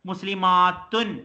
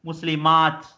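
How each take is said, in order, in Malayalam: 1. വാക്ക് പൂർണ്ണമായ -tun എന്ന അവസാനത്തിലാണ് അവസാനിക്കുന്നത്. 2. വാക്ക് സോഫ്റ്റ് t ശബ്ദത്തിലാണ് അവസാനിക്കുന്നത്. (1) "ശരിക്കും ഇവിടെ ഉള്ളത് മുസ്ലിമാത്തുൻ" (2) "ത് എന്നുള്ള സോഫ്റ്റ് ആയിട്ട് പറയും"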